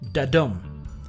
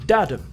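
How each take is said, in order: First: The stress is on the second syllable. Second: The stress is on the first syllable. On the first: "the second syllable is stressed, so it sounds like dadum" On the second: "The first syllable is stressed, so it sounds like dadum"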